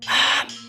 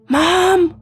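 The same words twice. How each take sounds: First: It is said in a loud whisper. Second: It is called out a little louder.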